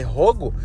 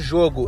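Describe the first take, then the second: First: The word begins with a harsh h-like sound. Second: The word begins with a soft zh sound.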